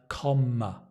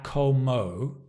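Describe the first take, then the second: First: The first vowel sounds like a short 'o'. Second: The first vowel sounds like a long 'oh'. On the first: The speaker calls it right. "it's a comma" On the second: The speaker calls it wrong. "So it's not a como"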